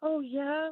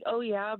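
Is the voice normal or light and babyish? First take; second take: light, babyish; normal. First: It is said in a light, babyish voice. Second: It is said in a normal voice.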